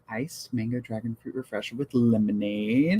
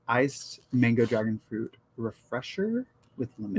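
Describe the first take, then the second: First: It is said at normal conversational speed. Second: It is said slowly and drawn out.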